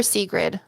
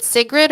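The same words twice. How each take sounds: First: "Sigrid" with a long ee, as in see. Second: "Sigrid" with a short i, as in sit. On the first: Offering a viewer the other option, "Sigrid" as SEE-grid. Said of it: "The first one, Sigrid". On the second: Checking a viewer's name, "Sigrid" as SIG-rid. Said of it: "Is it Sigrid or Sigrid?". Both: Shown as a demonstration.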